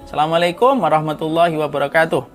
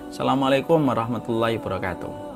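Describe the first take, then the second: First: The greeting is said louder. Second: The greeting is said at softer volume.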